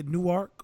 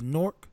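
First: Newark in two parts, "new-ARK"; non-local pronunciation. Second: Nork in one syllable; Jersey pronunciation. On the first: Comparing Jersey city names, Newark as "new-ark". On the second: Showing how Jersey people say it, Nork in one syllable. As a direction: squash Newark down to "Nork". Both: Shown as a demonstration. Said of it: "Jersey people don't say Newark".

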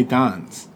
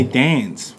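First: Dance with a broad ah sound, slowed down; dance, broad ah as in father; Kiwi dance. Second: Dance with the short flat a of cat, slowed down; Australian dance. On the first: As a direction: say dance slowly the Kiwi way with an open ah. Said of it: "We say dance". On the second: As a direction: say dance slowly as an Aussie does, short a like cat. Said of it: "They say dance". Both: Shown as a demonstration.

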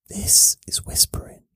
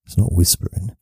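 First: Voiceless breath whisper. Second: Said in the usual way. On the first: Shown as a demonstration. Showing viewers the real thing, whispered. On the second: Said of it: "it's a bit quieter".

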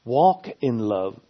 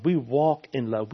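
First: "Walk" slow and leaned on, louder; preacher stressing "Walk in love". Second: Said in the usual way. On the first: Shown as a demonstration. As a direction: hit the word "Walk" hard and slow. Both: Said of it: "I'm emphasizing the word walking here".

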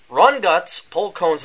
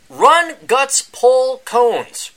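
First: Slow plain restatement; slower title repeat. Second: "Run Guts Pull Cones" slow, much higher and louder, stretched out; slow, high, booming title call; grand title announcement. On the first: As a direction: repeat the title calmly and clearly. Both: Acted. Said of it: "That is the new book out by Adam Piggott".

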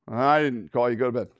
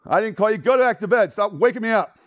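First: Said in the usual way. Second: High, loud acted exasperation; irritated scolding. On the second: Old man woken twice scolds the boy, loud and irritated. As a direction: send the pest away crossly.

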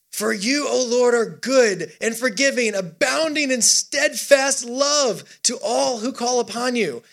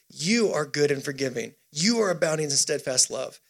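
First: High, stretched-out words of praise; worshipful psalm reading. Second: Lower, settled words of assurance; subdued worship. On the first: Acted. Preacher reading David's turn to worship, high drawn-out praise. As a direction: proclaim it slowly, pitched up. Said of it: "David changes gears for worship". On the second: Retold or imitated. Preacher voicing David holding on to God, low and settled. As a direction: bring it down into quiet conviction. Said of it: "That's David lifting up worship".

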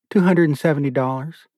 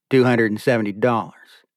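First: A touch higher, lightly voiced wife; wife states the savings; Beulah's answer. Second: Said in the usual way. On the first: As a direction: answer him plainly as Beulah. Beulah answers, Asher repeats.

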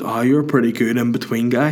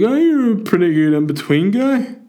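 First: Said in the usual way. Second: High, exaggerated fan impression; drunk young fella. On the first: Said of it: "He goes". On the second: Drunk fella complimenting the comedian, high put-on voice. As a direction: mimic a drunk punter's clumsy compliment, pitched right up. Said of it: "But he's like".

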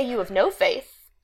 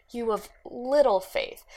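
First: "no" pressed a little, slowed; stress on no. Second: "little" pressed a little, slowed; stress on little. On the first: Contrasting what Jesus didn't say, stress on "no". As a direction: lean on "no" in "You have no faith". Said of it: "He didn't say". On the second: Quoting what Jesus really said, stress on "little". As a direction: lean on "little" in "You have little faith". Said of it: "He said". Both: Shown as a demonstration.

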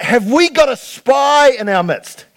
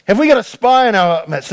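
First: Alarmed shout. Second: Said in the usual way. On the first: Retold or imitated. King shouting at his officers, alarmed. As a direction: bellow it at the room. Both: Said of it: "he's like".

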